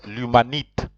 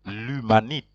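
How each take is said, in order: No difference in how they are said.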